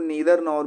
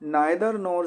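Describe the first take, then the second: First: The first vowel of neither sounds like 'ee'. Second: The first vowel of neither sounds like 'eye'. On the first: "या इसको नीदर नोर भी pronounce करते हैं" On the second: "नाइदर नोर से"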